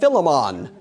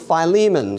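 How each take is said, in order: First: The name is said in a Jamaican-style pronunciation. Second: The name is said in the usual pronunciation.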